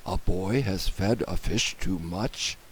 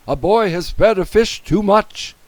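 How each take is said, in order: First: Low, soft repeat as a question; puzzled question. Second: High, loud emergency report; urgent alarm. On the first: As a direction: query it in disbelief, lower and quieter. Firemen query the alarm. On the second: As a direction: sound the alarm over the radio. Policeman raises radio alarm. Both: A narrator's reading.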